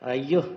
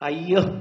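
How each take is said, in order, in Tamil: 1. வியப்பும் போற்றுதலும் கலந்த தொனியில் சொல்லப்படுகிறது. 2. உற்சாகமான, மகிழ்ச்சியான தொனியில் சொல்லப்படுகிறது. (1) "அதனுடைய அர்த்தம் வேற" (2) "அதுக்கு அர்த்தம் வேற"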